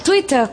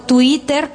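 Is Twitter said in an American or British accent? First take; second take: British; American. First: It is said with a British accent. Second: It is said with an American accent. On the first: "como dirían los británicos" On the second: "como dicen"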